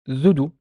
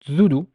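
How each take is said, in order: Both takes have the same delivery.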